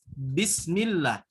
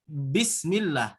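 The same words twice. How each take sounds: The two takes are said the same way.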